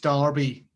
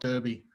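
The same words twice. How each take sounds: First: The first syllable sounds like 'dar'. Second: The first syllable sounds like 'der'. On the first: The speaker calls it right. "it's Dar- it's Derby" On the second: The speaker calls it wrong. "not Derby"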